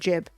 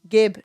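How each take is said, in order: First: It starts with a j sound. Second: It starts with a hard g sound. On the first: "not Jib" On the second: "I say Gib"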